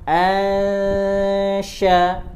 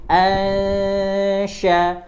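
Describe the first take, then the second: No difference in how they are said.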